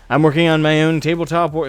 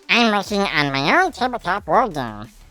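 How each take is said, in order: First: It is read in a dignified voice. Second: It is read in an undignified voice.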